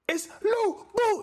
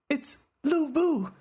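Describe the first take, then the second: First: It is said with an extra strong accent. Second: It is said with a mild accent.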